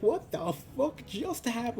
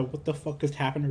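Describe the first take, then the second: First: High-pitched, stunned exclamation; mock-shocked high voice; acted shock. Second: Said in the usual way. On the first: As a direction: act out stunned disbelief, pitch jumping up. Kissed awake, acts out shock.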